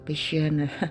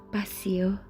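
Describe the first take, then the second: First: The word is pronounced the English way. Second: The word is pronounced the Latin way. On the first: The speaker calls it wrong. "jangan di Inggris-Inggriskan membaca dengan passio, passion" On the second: The speaker calls it right. "Tetap bahasa Latin membaca dengan ejaan yang sama"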